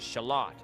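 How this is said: It is said with a British pronunciation. "I pronounce the word shallot as as shallot"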